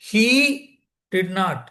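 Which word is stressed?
he. The word he carries the main stress. Someone other than him did it. "அவன் இல்லை, ஆண் இல்லை"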